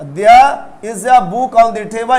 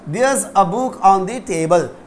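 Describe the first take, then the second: First: 'There is' is said as two full words. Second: 'There is' is contracted into one syllable. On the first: The speaker calls it wrong. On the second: The speaker calls it right.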